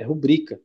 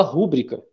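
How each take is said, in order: First: Rubrica stressed on the second syllable, ru-BRI-ca; rubrica, correctly stressed on BRI; right stress. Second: Rúbrica stressed on the first syllable, RÚ-bri-ca; rúbrica, wrongly stressed on RÚ. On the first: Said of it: "é rubrica". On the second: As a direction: say rúbrica with the accent on RÚ. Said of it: "mas não é rúbrica". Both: Shown as a demonstration.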